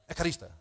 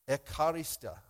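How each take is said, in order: First: The word is said quickly and smoothly. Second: The word is said slowly and carefully. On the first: The speaker calls it right. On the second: The speaker calls it wrong.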